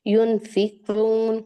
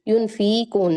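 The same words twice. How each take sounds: First: युनफिकून slowly, short फि and long कून; slow recited युनफिकून, held on कू; lengthened qu. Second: युनफिकून with फी stretched and कून not held; युनफिकून, long फी shown as wrong; wrong lengthening. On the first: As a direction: keep फि short and draw out कू in युनफिकून. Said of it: "क़ा को लंबा करेंगे". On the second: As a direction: put the length on फी in युनफिकून as a mistake. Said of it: "युनफिकून नहीं". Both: Shown as a demonstration.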